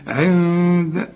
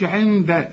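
First: عند with a long hum in place of n; hidden noon, ghunna. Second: عند with the tongue touching on the n; wrong tongued noon. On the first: Teacher corrects the student, hidden noon with ghunna. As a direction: draw out a nasal hum before the د of عند. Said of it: "اخفيها وغنها". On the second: Teacher shows what not to say, wrong tongued noon. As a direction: sound a full tongue-tip n in عند. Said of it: "ما تستعملش لسانك عند النون". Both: Shown as a demonstration.

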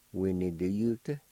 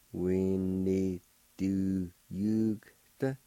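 First: Said in the usual way. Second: We need to yugta drawn out slowly; slow teaching take of We need to yugta; very slow demo. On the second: Shown as a demonstration. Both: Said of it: "like this".

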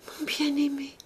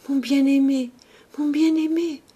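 First: High, breath-thin dying call; fading. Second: High, loud dying cry to a beloved; desperate. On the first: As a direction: let the cry die away into a whisper. Dying girl's last fading call. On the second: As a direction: cry out as breath runs out. Dying girl calls to her beloved. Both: A narrator's reading.

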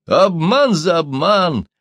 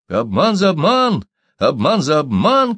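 First: High, slow, loud cry; drawn-out shout of revenge; outcry. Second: High, loud, slow chant; repeated loud battle cry; crowd shouting. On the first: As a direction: cry it out in triumph. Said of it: "вскрикнул китаец". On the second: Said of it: "кричали гольды". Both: A narrator's reading.

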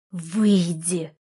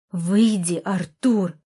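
First: Restrained fury: "Выйди" squeezed through teeth; hissed through teeth. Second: "Выйди" louder, falling hard, then "Артур" snapped; louder angry command: "Выйди, Артур!"; angry order. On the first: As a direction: hold the anger in and grind out "Выйди". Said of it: "процедила я сквозь зубы". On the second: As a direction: command him out, no holding back now. Orders him out again. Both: A narrator's reading.

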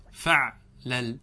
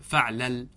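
First: "فعلل" very slowly, in two separate pieces; broken into syllables. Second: Said in the usual way. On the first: Shown as a demonstration. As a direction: pause between the two halves of "فعلل". Teacher repeats pattern split in two. (تقطيع "فعلل" ببطء شديد)

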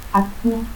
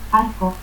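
First: Arco as "atcu". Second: Said in the usual way. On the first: Shown as a demonstration. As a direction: stop for R in Arco, final u. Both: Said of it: "confusión de R y T al final de sílaba".

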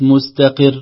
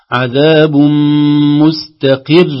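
First: مستقر slow with the ر cut short; short r, wrong. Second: مستقر chanted loud with a held, doubled ر; long doubled r. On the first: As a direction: say مستقر with a single ر, slowly. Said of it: "وليست". (نطق خاطئ لمستقر بلا تشديد) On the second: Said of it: "فنقول". (راء مشددة ممدودة في مستقر بصوت مرتفع) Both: Shown as a demonstration.

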